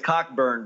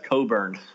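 First: A k sound is heard before the b. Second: No k sound is heard before the b. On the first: The speaker calls it wrong. "it looks like it's Cockburn" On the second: The speaker calls it right. "I think they pronounce it as Coburn"

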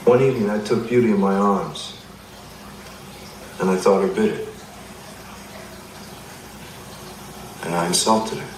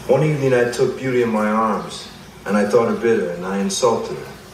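First: It is said with a strategic pause. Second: It is said without a strategic pause.

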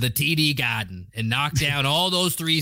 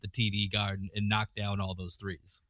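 First: It is said in a put-on Boston accent. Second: It is said in the speaker's ordinary accent.

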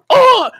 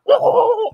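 First: It is a plain hit grunt. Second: It is a guttural grunt gurgling as underwater.

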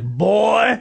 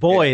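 First: The word is said in a demeaning, contemptuous way. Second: The word is said in a plain, neutral way. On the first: It belittles a grown man as inferior. "They say it like boy. Like it's very derogatory" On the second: It is an ordinary word for a young male. "they don't say it like boy in South"

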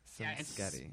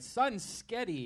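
First: The phrase is said at a normal pace. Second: The phrase is said slowly and drawn out.

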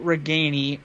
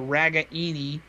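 First: The surname is said in its usual pronunciation. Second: The surname is said in a mangled pronunciation. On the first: The speaker calls it right. "their best receiver was Nico Reganey" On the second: The speaker calls it wrong. "if you're the announcers for the game last year"

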